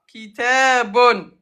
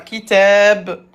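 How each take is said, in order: First: The word ends with a full 'bun' syllable. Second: The word ends with a bare 'b' sound. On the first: The word is said without stopping after it. "Dammatain, il y en a deux à la fin" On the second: The word is said at a stop. "à l'arrêt, comment on va le prononcer?"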